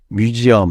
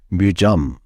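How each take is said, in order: First: It is said in three full syllables. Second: It is said in two syllables, run together. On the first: The speaker calls it wrong. "뮤지엄 하면은 못 알아듣고" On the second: The speaker calls it right. "뮤점 이런 식으로"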